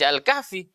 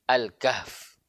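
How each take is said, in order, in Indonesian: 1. Kata ini berakhir dengan bunyi vokal. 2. Kata ini berakhir dengan huruf mati. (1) "maka tidak dibaca Al-Kahfi"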